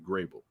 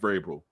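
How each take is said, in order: First: The name begins with a G sound. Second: The name begins with a V sound. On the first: The speaker calls it wrong. "I always go with the G" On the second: The speaker calls it right. "Yeah, there it is"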